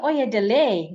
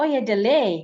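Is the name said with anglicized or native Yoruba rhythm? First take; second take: anglicized; anglicized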